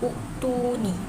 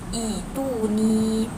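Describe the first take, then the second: First: It begins with a short u and k. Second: It begins with a long i, no k. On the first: The speaker calls it wrong. "sepatutnya kita tak boleh nak baca" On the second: The speaker calls it right. "dia berbunyi ituni"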